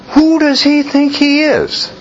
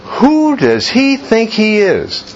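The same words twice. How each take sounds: First: Very high scandalised question; mock outrage, pitched way up; outraged priests. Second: Pitched-up mock indignation; half-acted scandalised question; indignant question. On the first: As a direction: voice their indignation. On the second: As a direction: echo the outrage, slower. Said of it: "Logical question, right?".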